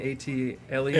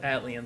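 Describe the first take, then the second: First: The letters A and T are spelled out. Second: It is said as one blended word. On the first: "people have said, oh, you mean A.T. Aliens?" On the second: "I've said Atlians. That's how I've always said it"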